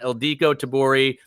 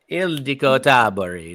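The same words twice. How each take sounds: First: The name is said with an American accent. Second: The name is said with a Hungarian pronunciation.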